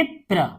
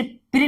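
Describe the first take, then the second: First: प्र as 'pra', ending in a schwa; correct reading demo. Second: प्र mistaken as 'pri'; wrong reading demo. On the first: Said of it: "इसे हम पढ़ेंगे प्र". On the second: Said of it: "इसे प्र नहीं पढ़ेंगे". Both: Shown as a demonstration.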